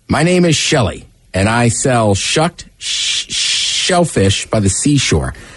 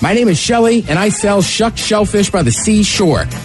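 First: It is read at a normal pace. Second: It is read quickly.

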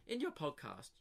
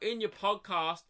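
First: It is read in a smug, pretentious voice. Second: It is read in a plain, neutral voice. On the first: The writer comes across as a pretentious douche. "So this is how I read it" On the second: The writer could be sincere. "fair enough, he could be like"

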